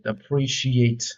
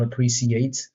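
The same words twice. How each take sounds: First: "appreciate" said slowly as uh-PREE-see-ate, with an s sound; slow, careful wrong "appreciate"; mispronounced appreciate. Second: "appreciate" said as uh-PREE-shee-ate with a sh sound; the right "appreciate", a bit slow; corrected appreciate. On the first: Gamer testing how to say a word, slow wrong take. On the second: Gamer correcting himself, careful pronunciation. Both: Shown as a demonstration. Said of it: "I think it's appreciate".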